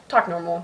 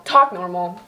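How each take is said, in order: First: Said in the usual way. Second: Firm self-scold, a bit louder with a rising end. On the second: Acted. Scolding herself for the fake accent, firm. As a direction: snap at yourself to quit the accent.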